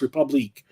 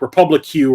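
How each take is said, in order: First: The name ends with a 'keek' sound. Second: The name ends with a 'kyoo' sound. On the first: The speaker calls it right. "no, it's Republique" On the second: The speaker calls it wrong. "he always re- mispronounced it. He calls it like Republic Q"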